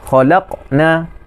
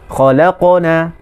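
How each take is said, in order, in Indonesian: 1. Huruf q diputus dari bunyi yang mengikutinya. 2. Huruf q bersambung terus ke bunyi yang mengikutinya. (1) "kita memutuskan, itu salah" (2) "Kita mesti bersambung dengan huruf yang selepas dia"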